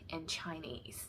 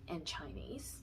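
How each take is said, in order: Both takes have the same delivery.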